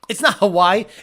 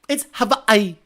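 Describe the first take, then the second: First: It is pronounced the usual mainland way. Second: It is pronounced the native Hawaiian way. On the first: The speaker calls it wrong. "It's not" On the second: The speaker calls it right. "how like natives in Hawaii pronounce the, the e e the, the Hawaii"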